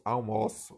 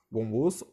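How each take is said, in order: First: "almoço" with the verb's open stressed o. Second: "almoço" with the noun's closed stressed o. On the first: Teacher showing a pronunciation difference, open O in "almoço". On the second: Teacher showing a pronunciation difference, closed O in "almoço". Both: Shown as a demonstration. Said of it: "há uma diferença de pronúncia".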